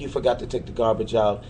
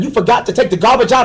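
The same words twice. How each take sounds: First: It is said in a gentle, sweet tone. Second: It is said in a harsh, nagging tone. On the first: A kind reminder that gets a man to act. The speaker calls it right. "talking to him the right way" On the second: A scolding accusation of forgetting again. The speaker calls it wrong. "Instead of"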